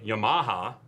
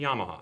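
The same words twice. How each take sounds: First: It is said with an American English pronunciation. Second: It is said with a Japanese-style pronunciation. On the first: The speaker calls it wrong. "You do not say" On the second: The speaker calls it right. "you say"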